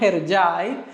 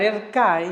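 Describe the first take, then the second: First: The name is said with its international pronunciation. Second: The name is said with a Spanish pronunciation. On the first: It is how the name is known everywhere. "para todo el mundo y en todos los países se llama Herjai" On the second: It is the easier form for Spanish speakers. "Es más fácil porque es la pronunciación en español"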